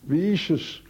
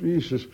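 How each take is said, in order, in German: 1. Es wird im Berner Schweizerdeutsch gesprochen. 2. Es wird auf Standarddeutsch gesprochen.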